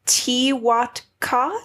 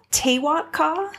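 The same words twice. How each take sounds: First: Tewatka said slowly as "tee-WAHT-kah"; first try at the name. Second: Tewatka? said "tay-WAHT-kah" with a high questioning rise; Tewatka? as "tay-WAHT-kah", unsure, rising; unsure second try. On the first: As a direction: Tewatka with a "tee" start, drawn out. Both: Shown as a demonstration. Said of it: "Yeah, I think Tewatka".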